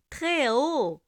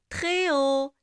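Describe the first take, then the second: No difference in how they are said.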